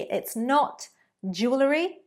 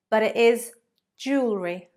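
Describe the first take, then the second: First: The word is said with three syllables. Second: The word is said with two syllables. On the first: The speaker calls it wrong. "not three" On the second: The speaker calls it right. "Two syllables"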